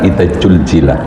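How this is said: It is said with 'j' sounds, in a Sundanese accent.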